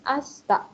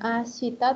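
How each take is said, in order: First: The i after sh is dropped. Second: The i after sh is clearly pronounced. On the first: "agak dilesatkan" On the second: "bukan yang terlalu jelas gitu ya suaranya"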